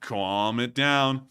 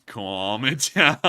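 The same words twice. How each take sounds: First: Drawn out, slow and even; slow calm-down. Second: Slow, breaking into a laugh. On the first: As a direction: stretch it slowly to settle them. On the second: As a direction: laugh in the middle of it. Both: Shown as a demonstration.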